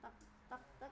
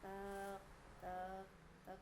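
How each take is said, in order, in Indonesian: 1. Ketukannya datang dengan tempo yang stabil dan lebih cepat. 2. Ketukannya datang perlahan, dengan jeda yang lebih jauh. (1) "jam tuh kan tek tek tek gitunya" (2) "Jadi lambat, ... tapi ini tek tek tek gitunya"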